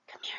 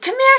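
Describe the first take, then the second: First: It is said in a hushed, secretive tone. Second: It is said in a lively, excited tone. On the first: "Or secretive" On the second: "Or excited"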